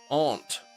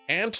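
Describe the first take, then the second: First: The vowel sounds like the one in father. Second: The vowel sounds like the one in cat. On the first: "You say aren't" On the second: "Ant like the bug"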